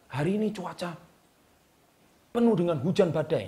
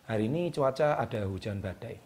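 First: Higher-pitched, heightened weather forecast; dramatic intonation. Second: Monotone forecast, low and uneventful; flat intonation. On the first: Coach demonstrating a weather forecast to viewers, dramatic intonation. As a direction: make the storm sound like a big commotion. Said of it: "intonasinya itu menggambarkan hujan badai itu betapa hebohnya". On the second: Coach showing viewers a dull forecast, flat intonation. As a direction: read the storm as if nothing is happening. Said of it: "Tapi kalau Anda nadanya datar". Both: Shown as a demonstration.

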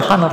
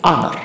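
First: First "honor" with the h sounded, "ha-nor"; wrong pronunciation. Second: Second "honor" with the h dropped, "a-nor"; silent h. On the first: Teacher warning about the reading, "honor" with audible h. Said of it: "Cara bacanya itu bukan honor". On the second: Teacher giving the correct reading, "honor" with silent h. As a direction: say "honor" starting on the vowel, no h. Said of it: "tapi honor". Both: Shown as a demonstration.

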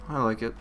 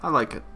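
No difference in how they are said.

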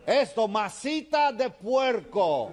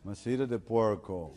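First: Slow, high-pitched bellowed lesson; shouting. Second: Put-on slow repeat in American-accented Spanish. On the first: Acted. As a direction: shout each syllable at the foreigner. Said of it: "le sigue gritando". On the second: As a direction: struggle through the Spanish like an American. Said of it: "George tiene que decir".

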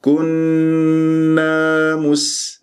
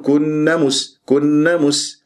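First: Very slow recited كنا مس, long hum and long a; correct natural madd. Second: Quicker كنا مس with the final a of كنا cut short; dropped alif. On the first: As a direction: hold the nn of كنا, lengthen its a, then مس. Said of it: "فلازم". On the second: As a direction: run كنا straight into مس as a mistake. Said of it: "ما أقول". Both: Shown as a demonstration.

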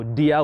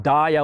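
First: Dia said as DEE-uh; alternative pronunciation. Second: Dia said as DIE-uh; first pronunciation variant. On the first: Preacher offering another reading, dia said DEE-uh. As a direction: say dia with an "ee" vowel. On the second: Preacher giving the Greek prefix, dia said DIE-uh. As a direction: say dia with an "eye" vowel. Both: Shown as a demonstration.

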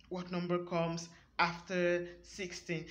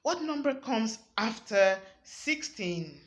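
First: After stressed, slightly lower and softer. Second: Said in the usual way. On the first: Shown as a demonstration. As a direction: lean on the word after. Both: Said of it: "you see me using the word after".

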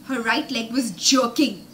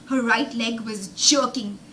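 Both takes have the same delivery.

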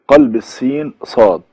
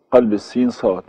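First: "قلب السين صاد" said slowly and louder, each word weighed; slow emphatic heading. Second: Said in the usual way. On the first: Shown as a demonstration. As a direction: announce the new rule firmly, word by word.

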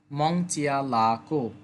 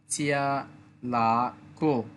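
First: মং চিয়া লা কো run together in one smooth phrase; joined together. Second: চিয়া লা কো said slowly, syllable by syllable; slow, careful চিয়া লা কো; slow syllable drill. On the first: Teacher joins the syllables after drilling them. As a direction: say মং চিয়া লা কো as one flowing word. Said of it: "একত্রে বললে". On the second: Teacher drills চিয়া লা কো slowly for students. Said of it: "উচ্চারণটা হবে মং". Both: Shown as a demonstration.

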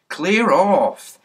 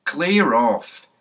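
First: Much louder, higher shout to clear off; angry shout. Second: Barked order to clear off; gruff order. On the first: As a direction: bellow it at the boy, fed up. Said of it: "said Mister Goon". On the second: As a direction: shoo the kids off like a cross policeman. Policeman shoos the children away. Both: Acted.

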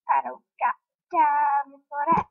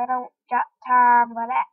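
First: Sassy meme line, rising end; meme quote voice. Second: Louder, blurted out; loud exclaim. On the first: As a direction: quote the viral clip with attitude. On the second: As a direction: blurt it out as you panic. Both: Pretend.

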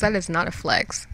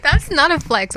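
First: Said in the usual way. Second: Loud. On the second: Real, not acted. Loud self-correction.

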